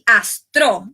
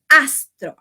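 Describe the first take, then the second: First: The stress is on the last syllable. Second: The stress is on the first syllable. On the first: The speaker calls it wrong. "Nou pa di astro" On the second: The speaker calls it right. "Nou di astro"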